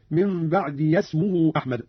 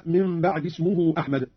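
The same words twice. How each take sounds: First: "بعد اسمه" said "ba'diya-smuhu"; voweled possessive ya. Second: Said in the usual way. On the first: Shown as a demonstration. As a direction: slowly join "بعد" to "اسمه" with a "ya" between. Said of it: "بفتح ياء الإضافة". (فتح ياء الإضافة في "بعد اسمه") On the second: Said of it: "قرأ قالون بفتح ياء الإضافة".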